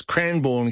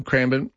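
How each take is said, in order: First: CRANBOURNE with a full born at the end; over-pronounced Cranbourne, second syllable in full; Cranbourne mispronounced. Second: CRANBOURNE with a reduced ending, Cranb'n; Cranbourne said correctly. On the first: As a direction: say Cranbourne as spelt, Cran-born. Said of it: "gets it as well". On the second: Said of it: "Cranbourne gets it as well". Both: Shown as a demonstration.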